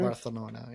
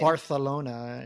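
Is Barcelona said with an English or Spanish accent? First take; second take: Spanish; English. First: It is said with a Spanish pronunciation. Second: It is said with an English pronunciation.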